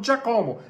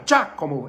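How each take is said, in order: First: "Giacomo" as Dja-CO-mo, stress moved to co; American mispronunciation. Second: "Giacomo" as DJA-co-mo, falling after Gia; first-syllable stress. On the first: Retold or imitated. Teacher imitates what Americans say, wrong stress. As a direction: stretch the co in "Giacomo". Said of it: "Eles falam". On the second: Shown as a demonstration. Teacher explains the tonic syllable, stress on first. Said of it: "Primeiro, a sílaba tônica é Gia".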